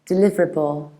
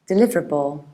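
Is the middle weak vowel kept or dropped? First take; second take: dropped; dropped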